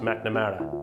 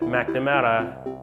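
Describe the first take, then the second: First: It is said in the speaker's ordinary voice. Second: It is said in a broad local accent. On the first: "in my normal voice" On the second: "the way you say it"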